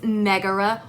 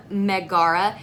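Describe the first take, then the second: First: Megara with stress on the first syllable; corrected stress. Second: Megara mispronounced with stress on the middle syllable; wrong-syllable stress. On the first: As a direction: say Megara as MEG-a-ra. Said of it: "It's Megara". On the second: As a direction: say Megara as meh-GAR-a. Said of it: "I put the emphasis on the wrong syllable". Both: Shown as a demonstration.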